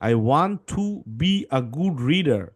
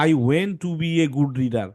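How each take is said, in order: First: Very slow reading, want said as wa-nt; correct model reading. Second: Slow, mock student reading with went for want; imitating the wrong word. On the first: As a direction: reads I want to be a good reader, want said as wa-nt. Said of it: "উচ্চারণ হচ্ছে to". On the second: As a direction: reads I went to be a good reader, went said as wen-t. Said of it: "তুমি বললা". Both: Shown as a demonstration.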